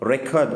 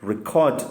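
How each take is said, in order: First: The stress is on the first syllable. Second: The stress is on the second syllable. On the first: It is used as a noun. "Record అనేది noun" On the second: It is used as a verb. "ఇక్కడ మీకు CORD ఇది stress అవుతా ఉంది"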